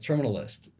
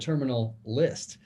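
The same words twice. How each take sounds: First: The two words run together into one. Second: The two words are kept clearly apart. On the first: The speaker calls it wrong. "it blends uh, together" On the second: The speaker calls it right. "distinctly say the terminal list"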